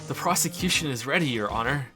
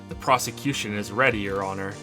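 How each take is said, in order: First: It is said in an amused, chuckling voice. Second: It is said in a plain, ordinary voice.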